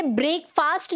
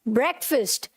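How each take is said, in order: First: ब्रेकफास्ट as "brake-faast"; long vowels in each half of ब्रेकफास्ट; wrong pronunciation. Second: ब्रेकफास्ट as "BREK-fust"; short e, reduced "fust" in ब्रेकफास्ट; correct pronunciation. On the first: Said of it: "इसे ब्रेकफास्ट नहीं बोलना". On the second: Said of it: "क्या बोलना है?". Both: Shown as a demonstration.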